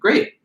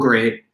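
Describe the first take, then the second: First: The voice sounds enthusiastic and positive. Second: The voice sounds exasperated and sarcastic. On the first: The idea is welcomed. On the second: The idea is being mocked.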